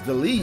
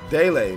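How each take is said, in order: First: The name sounds like the word 'delete'. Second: The name sounds like 'day-lay'. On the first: The speaker calls it wrong. "I thought it was Delete" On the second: The speaker calls it right. "Daylay, my bad"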